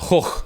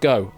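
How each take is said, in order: First: It has a rough throaty sound, like hoch. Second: It ends in a plain vowel, like go. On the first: The speaker calls it right. "if you pronounce it the, the Dutch way" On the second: The speaker calls it wrong. "it's definitely not go"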